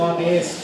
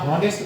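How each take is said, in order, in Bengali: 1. শব্দটা একটা স্বরধ্বনি দিয়ে শুরু হয়। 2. শব্দটা একটা h উচ্চারণ দিয়ে শুরু হয়। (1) "এই যে এখান থেকে শুরু করছি অনেস্ট" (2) "আমরা হনেস্ট বলি না"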